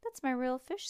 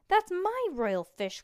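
First: Said in the usual way. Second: High, loud, slow outcry; crying out. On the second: Acted. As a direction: wail it out in protest. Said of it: "cried Stink".

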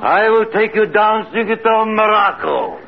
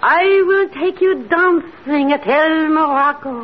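First: Entranced echo. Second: Hypnotic command. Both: Acted. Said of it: "Now repeat after me".

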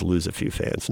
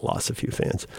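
First: Quiet aside saying "lose" with an oo vowel and z ending; "lose" said as looz, low and soft; murmured correction, "lose" rhyming with "shoes"; pronouncing lose. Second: Quiet aside saying "loss" with a short vowel and s ending; "loss" rhyming with "boss", very soft; murmured example of the misspelling "loss"; mispronouncing lose as loss. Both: Shown as a demonstration. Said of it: "not loss a few fans".

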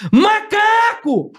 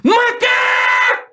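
First: Long high drawn-out yell; tic shout. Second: Very high, slow, drawn-out yell; shouting the tic at full force. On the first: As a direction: stretch the word out slowly, high and long. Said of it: "Era o dia inteiro assim, ó". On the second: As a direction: let it ring out long and high. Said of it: "Desse jeito". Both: Shown as a demonstration.

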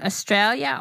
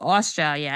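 First: Australia begun with a short, unstressed vowel; first pronunciation option. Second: Australia begun with an open, rounded "aw"; second pronunciation option. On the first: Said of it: "is it Australia or Australia?". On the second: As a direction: open out the first vowel of Australia to "aw". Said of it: "how is it pronounced properly?". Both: Shown as a demonstration.

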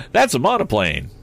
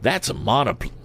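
First: Lightly voiced lad, higher in pitch; Tom's declaring voice. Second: High-pitched voice for the wrong figure; wrong character voice. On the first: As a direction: declare it as a confident young expert. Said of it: "declared Tom". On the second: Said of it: "wrong voice". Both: A narrator's reading.

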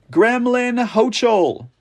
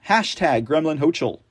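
First: Mocking, drawn out. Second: Said in the usual way. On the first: Real, not acted.

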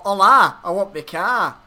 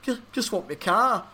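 First: Louder, jokey attempt at a Mexican accent; playful mock Mexican accent. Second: Wistful imitation, pitched higher; mock-forlorn plea, lightly acted; longing. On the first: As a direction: put on a rough Spanish-speaker accent. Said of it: "in Mexican, probably. Spanish is what they speak". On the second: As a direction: pine for it like a lonely man. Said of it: "longingly into the night, going".

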